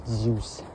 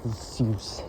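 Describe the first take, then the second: The two takes are said the same way.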